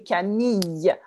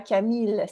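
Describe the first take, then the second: First: The double L is said as a Y sound. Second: The double L is said as an L sound. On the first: The speaker calls it right. "c'est Camille avec un Y sound" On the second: The speaker calls it wrong. "ce n'est pas Camille"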